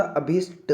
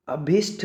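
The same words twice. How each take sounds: First: अभिष्ट slowly, ending in unaspirated ṭa; correct pronunciation. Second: अभिष्ट ending in aspirated ṭh; wrong pronunciation. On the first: Teacher gives the right form, अभिष्ट slow with plain ṭa. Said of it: "टा, टा बोलेंगे टा". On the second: Teacher shows the mistake, अभिष्ट with breathy final ṭh. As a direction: puff the final consonant of अभिष्ट as ṭh. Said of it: "नहीं होता". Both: Shown as a demonstration.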